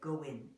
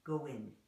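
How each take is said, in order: The two takes are said the same way.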